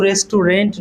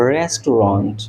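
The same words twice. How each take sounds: First: "রেস্টুরেন্ট" ending in an English-spelling "-rent"; "রেস্টুরেন্ট" mispronounced with final "-rent"; wrong pronunciation. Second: "রেস্টুরেন্ট" ending in an open "-ront", low and measured; "রেস্টুরেন্ট" carefully modelled with final "-ront"; corrected pronunciation. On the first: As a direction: say "রেস্টুরেন্ট" as res-tu-rent, with an "e" in the last syllable. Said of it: "উচ্চারণটা কিন্তু রেস্টুরেন্ট নয়". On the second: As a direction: say "রেস্টুরেন্ট" as res-tu-ront, pitched down. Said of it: "উচ্চারণটা হবে". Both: Shown as a demonstration.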